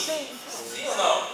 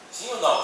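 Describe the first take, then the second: First: Asked slowly and higher, prompting the crowd; slow, higher quiz question. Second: Said in the usual way. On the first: Shown as a demonstration. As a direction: draw the question out to the audience. (pergunta lenta e mais aguda ao público)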